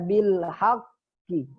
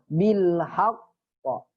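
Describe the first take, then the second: First: The final q bounces toward an 'i' sound. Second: The final q bounces toward an 'a' sound. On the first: The speaker calls it wrong. "Kalau berhenti jangan dibaca bil haqqi" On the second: The speaker calls it right. "Semuanya ke fathah"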